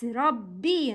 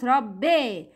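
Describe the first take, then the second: First: Rabbi ending in a pure "bee"; full kasra. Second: Rabbi ending like "bay"; incomplete kasra. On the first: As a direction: complete the final i of Rabbi. (Rabbi with a clear ee) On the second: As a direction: open the end of Rabbi to eh. (Rabbi said as rabbe) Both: Shown as a demonstration. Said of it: "not Rabbi".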